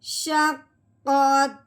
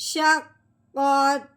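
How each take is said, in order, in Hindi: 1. शब्द के अंत में सुर नीचे गिर जाता है। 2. शब्द के अंत में सुर नीचे गिर जाता है।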